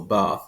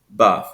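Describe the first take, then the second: First: The vowel is a long open ah sound. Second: The vowel is a shortened, intermediate ah sound. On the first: "they have that ah sound, that long ah sound" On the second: "an intermediate sound, and it's kind of a shortened R"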